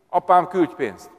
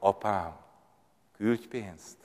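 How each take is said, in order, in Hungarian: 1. Durvának, udvariatlannak és követelőzőnek hangzik. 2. Gyengédnek, lágynak és könyörgőnek hangzik. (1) "Ilyen szemtelen a te fiad. Ilyen kemény" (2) "ugyanaz a mondat, és egészen más indulat"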